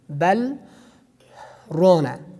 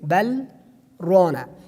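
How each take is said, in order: First: A breath is taken during the pause. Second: The pause is made without taking a breath. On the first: The speaker calls it wrong. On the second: The speaker calls it right.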